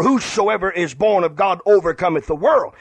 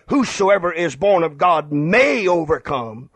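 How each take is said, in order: First: Said in the usual way. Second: "may" stressed as the disputed word. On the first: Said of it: "It doesn't say, "Whosoever is born of God may overcome". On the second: Shown as a demonstration. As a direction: lean hard on "may". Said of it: "It doesn't say".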